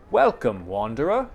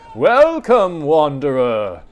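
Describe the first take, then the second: First: It is said in a plain, ordinary reading voice. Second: It is said in a theatrical, dramatic put-on voice. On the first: The speaker calls it wrong. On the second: The speaker calls it right.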